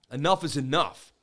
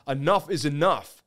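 No difference in how they are said.

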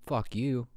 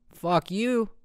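First: Said in the usual way. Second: Much higher, rising second jab; mock retort. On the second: Host answering imagined critics, high mock retort. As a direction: throw it back in a high, teasing pitch.

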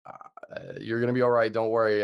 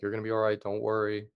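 First: Hesitant breathy uh, then louder forced reassurance; comforting, hiding the truth. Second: Calm reassurance to an injured friend; reassuring. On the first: Friend hiding how bad the wound looks, forced comforting tone. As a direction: cover the worry with a firm comforting line. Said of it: "trying to comfort you rather than tell you". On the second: Friend reassuring a bitten man, calm reassuring tone. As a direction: soothe him, keep it easy. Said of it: "he was just reassuring me". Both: Retold or imitated.

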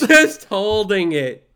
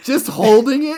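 First: Slow, loud laughing confirmation; loud laughing echo. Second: High, loud disbelieving question; incredulous. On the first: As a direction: bellow it back with a laugh. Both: Real, not acted.

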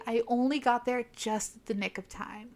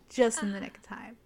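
First: Said in the usual way. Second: Mock-dramatic whispered repeat. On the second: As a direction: drop into a theatrical whisper for effect. Dramatic repeat of hero's line.

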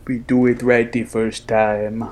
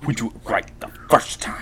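First: Badly faked Schwarzenegger accent; a hammed-up action hero accent; bad Schwarzenegger impression; horrible accent. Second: Breathy whispered mock accent line; hushed, badly faked Schwarzenegger accent. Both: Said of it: "That was a horrible accent".

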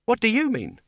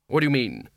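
First: High-pitched baffled question; baffled retort. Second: Said in the usual way. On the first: A narrator's reading. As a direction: throw the question back, much higher. Two speakers in verbal deadlock.

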